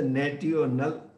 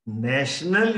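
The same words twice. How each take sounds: First: "national" as nat-ee-o-nal; spelling pronunciation. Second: Said in the usual way. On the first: Shown as a demonstration. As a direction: say "national" with a hard T, as written. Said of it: "you don't say national". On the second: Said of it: "National you write".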